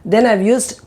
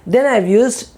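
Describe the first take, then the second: No difference in how they are said.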